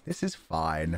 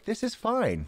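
First: "This is fine." dropped low and flat; deep deadpan "This is fine.". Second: Light high "This is fine."; "This is fine." said lightly and high; high sing-song. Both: Pretend.

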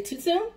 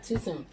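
First: "Too soon?" pitched high with a rising question tune; quoted catchphrase. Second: Said in the usual way. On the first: Retold or imitated. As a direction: ask "Too soon?" high, lifting at the end. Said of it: "You know how they say".

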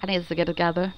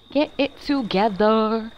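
First: Said in the usual way. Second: Slow, laid-back bro voice; bruh voice. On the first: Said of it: "switching between my bruh voice and, like, my, my normal voice". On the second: Shown as a demonstration. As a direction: say it like a chill frat bro. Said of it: "my bruh voice".

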